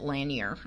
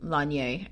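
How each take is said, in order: First: The name is pronounced the plain English way. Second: The name is pronounced the French way. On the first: This is how most videos say it. "most of the videos that I watched ... pronounced it Lanier" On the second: It sounds pompous, treating the name as French. "let's be pompous and French and Lanier"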